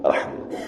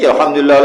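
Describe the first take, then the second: First: It is said softly and quietly. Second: It is said loudly, like men.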